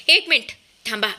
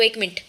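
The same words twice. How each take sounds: First: Shouting stop. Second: Said in the usual way. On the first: A narrator's reading. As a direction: yell to halt someone leaving. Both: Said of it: "समर जोरातच ओरडतो".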